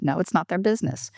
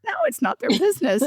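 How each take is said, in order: First: Said in the usual way. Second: High, laughing "No, it's not their business."; laughing retort. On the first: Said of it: "I'm like". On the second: Retold or imitated. Coach asks about introversion, she answers laughing. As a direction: laugh through the repeated answer. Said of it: "Do they know you're an introvert?".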